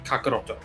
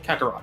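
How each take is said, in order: First: The name ends with an extra final vowel. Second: The name ends on a final consonant. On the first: This form is not the one people use. "we don't say Kakaroto" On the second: This form is the one people use. "we say Kakarot"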